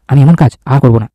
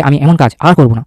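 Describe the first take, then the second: First: Said in the usual way. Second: Slow careful read. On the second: Shown as a demonstration. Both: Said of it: "এই লাইনটা দেখতে হবে".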